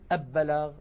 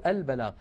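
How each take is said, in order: First: The L blends into a doubled B sound. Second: The L is clearly pronounced before the B. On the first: The speaker calls it wrong. "ما نقول" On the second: The speaker calls it right. "بل نقول"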